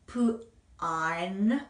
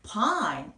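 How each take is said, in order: First: "pine" split into p, then a long drawn ine; sounded out. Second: "pine" joined in one falling syllable; blended pronunciation. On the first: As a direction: break "pine" after the p and stretch the rest. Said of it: "이를 한번 붙여주었더니". ("pine"을 p와 ine으로 끊어서 길게) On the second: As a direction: say "pine" whole, with a long I. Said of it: "그래서 pine 이렇게 됩니다". ("pine"을 한 음절로 이어서) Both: Shown as a demonstration.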